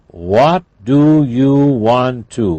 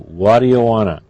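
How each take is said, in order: First: Both words of 'want to' are said in full. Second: 'Want to' is run together into 'wanna'.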